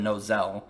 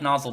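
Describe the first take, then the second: First: The name ends like the end of Rapunzel. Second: The name sounds just like the word nozzle. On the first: The speaker calls it wrong. "Nozel makes me think he's a goddamn Rapunzel character" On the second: The speaker calls it right. "I like Nozzle better"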